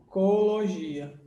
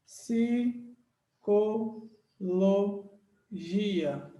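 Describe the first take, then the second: First: Psicologia with its first sounds cut off separately, then the rest run together; wrongly split syllables. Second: Psicologia said very slowly, a pause after each syllable; split into syllables. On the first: Teacher shows the split one couldn't make, wrongly separated psicologia. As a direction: break psicologia at the start only, finishing in one go. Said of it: "eu não poderia fazer assim". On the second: Teacher shows class how it is separated, syllable by syllable. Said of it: "é assim que se separa". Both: Shown as a demonstration.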